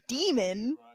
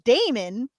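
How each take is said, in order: First: The first vowel sounds like 'dee'. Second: The first vowel sounds like 'day'. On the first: "the person narrating it calls him Demon" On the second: "which I would pronounce as Damon"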